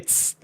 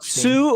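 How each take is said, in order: First: The syllable ends without any vowel. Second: The syllable ends with a full u vowel. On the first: "or I can say ts" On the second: "I can say tsu"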